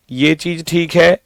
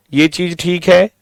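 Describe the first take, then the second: No difference in how they are said.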